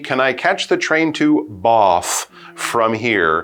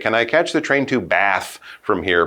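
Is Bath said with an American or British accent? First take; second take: British; American. First: Bath is said with a British accent. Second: Bath is said with an American accent. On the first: British listeners would understand it. The speaker calls it right. "use a British accent for the one word" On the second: British listeners might not understand it. The speaker calls it wrong. "British people might say, what?"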